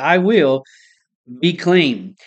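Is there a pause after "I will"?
yes. There is a pause after "I will".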